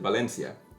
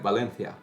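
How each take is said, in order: First: The c is said with an s sound. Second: The c is said with a th sound. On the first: This is how the speaker's own Spanish says it. "me saying" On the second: This is how people in Spain say it. "They would say it like Valencia, ... it's like a th th th th sound"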